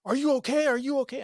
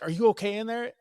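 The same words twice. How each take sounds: First: High-pitched, loud, panicky repeated question; acted alarm, much higher and louder; imitated yelling. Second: High, raised call through a door; louder, higher questioning call, acted; imitated worried call. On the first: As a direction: mimic a frantic mother yelling through a door. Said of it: "she's, like, yelling at her". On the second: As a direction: imitate a concerned mother checking on a child. Wife calls through locked door.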